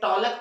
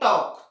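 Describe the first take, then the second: First: The l sound is pronounced before the k. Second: The l sound is silent before the k. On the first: The speaker calls it wrong. "इसे टॉलक पढ़ते हैं क्या, नहीं" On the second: The speaker calls it right. "एल silent होता है"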